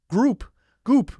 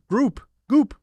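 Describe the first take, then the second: No difference in how they are said.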